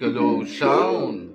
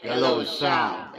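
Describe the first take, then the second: First: The voice sounds like a demon. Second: The voice sounds shrill and high-pitched. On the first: "Parang demonyo" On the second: "matining ang sound"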